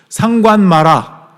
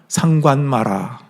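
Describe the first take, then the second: First: It is said in a loud voice. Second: It is said at normal volume.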